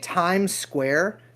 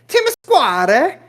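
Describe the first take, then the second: First: It is said in a plain American accent. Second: It is said in an Italian accent.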